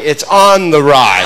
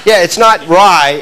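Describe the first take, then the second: First: "on the rye" with "on" hit hard and drawn out slowly; slow, deliberate "ON the rye"; stress on "on". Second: Said in the usual way. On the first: Shown as a demonstration. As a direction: lean on "on", then let "the rye" fall. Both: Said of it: "You have to say it like that".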